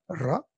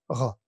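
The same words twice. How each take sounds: First: The R is rolled with the tongue tip. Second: The R is the standard French R. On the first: "avec un R soit roulé" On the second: "ou alors avec un R standard"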